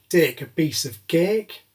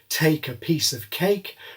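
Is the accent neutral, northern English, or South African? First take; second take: northern English; neutral. First: It is said in a northern English accent. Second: It is said in a neutral aspirated accent.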